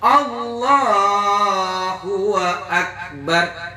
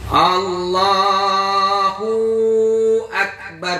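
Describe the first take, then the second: First: An added w with a vowel joins the words. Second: An added w without a vowel joins the words. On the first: "Atau hidup" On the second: "berarti ada nambah waw sukun kan?"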